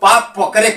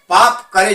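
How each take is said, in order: First: The p sound opens the second word. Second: The p sound closes the first word. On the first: Clasp the feet. "प को करे में जोड़ देना है" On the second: Commit sin. "पाप करे जो है"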